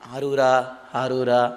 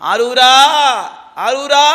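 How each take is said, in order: First: The name is said softly and quietly. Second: The name is called out loudly. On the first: The devotee cannot feel the experience this way. The speaker calls it wrong. "அப்படி கூப்பிட்டாலாம் அனுபவிக்க முடியாது" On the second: The devotee cries out to the god with full feeling. The speaker calls it right. "சத்தமா கூப்பிடணும்"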